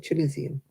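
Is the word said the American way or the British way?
British. It is said with a British pronunciation. The speaker calls it right.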